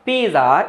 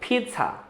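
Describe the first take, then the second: First: The middle has a j sound. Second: The middle has no j sound. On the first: The speaker calls it wrong. "पिज़्ज़ा इस प्रकार का बोल देते हैं" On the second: The speaker calls it right. "इसमें जा वाली sound है ही नहीं"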